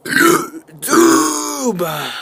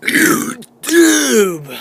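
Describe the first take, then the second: First: Word pushed out on a burp. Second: Burping the words. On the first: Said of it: "not doing good on the YouTube today". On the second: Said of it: "Oh man, it failed". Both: Real, not acted.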